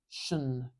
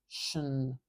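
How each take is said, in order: No difference in how they are said.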